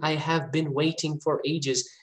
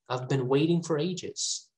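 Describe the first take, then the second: First: "I have" is said in full, as two words. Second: "I have" is contracted into one short syllable. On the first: The speaker calls it wrong. "it's not fluent. It's not. That is not the music of English" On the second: The speaker calls it right. "These are the ways to speak more fluently"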